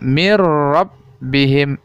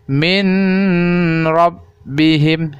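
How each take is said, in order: First: The n sound merges into a doubled r. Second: The n sound is pronounced before the r. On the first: The speaker calls it right. "Seolah-olah bunyi nun itu dimasukkan ke huruf ro" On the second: The speaker calls it wrong. "itu adalah salah ya"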